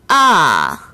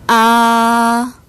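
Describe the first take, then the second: First: The pitch falls sharply from high to low. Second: The pitch stays high and level throughout. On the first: "제사성" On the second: "제일성"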